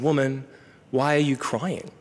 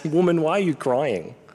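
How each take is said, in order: First: It is said in a gentle, curious tone. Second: It is said in a scornful, dismissive tone. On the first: The speaker genuinely wants to know why she cries. The speaker calls it right. "Jesus is curiously asking" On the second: The speaker looks down on the woman. The speaker calls it wrong. "We would be wrong to read this as"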